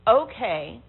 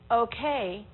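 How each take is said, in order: First: It is said in a disapproving, negative tone. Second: It is said in an uncertain, questioning tone. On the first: It is not acceptable at all. "The third one makes you think it's not okay at all" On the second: There is doubt or a question. "The second one, I'm not sure, I got a question"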